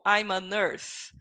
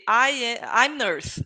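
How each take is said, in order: First: "I'm a nurse" said slowly with the article; slow, careful "I'm a nurse" with the article; correct version. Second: "I'm nurse" said without the article; wrong version. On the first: Teacher modelling the right sentence for students, slow and careful. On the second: Teacher showing students the wrong way, missing article. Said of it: "so you don't say". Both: Shown as a demonstration.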